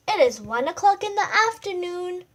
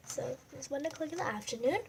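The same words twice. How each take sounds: First: Raised, louder storytelling read; storybook reading. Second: Softer, faster mumbled reread; quick quiet repeat. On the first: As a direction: read it out big for the listeners. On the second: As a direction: rush the line again under your breath. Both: Shown as a demonstration.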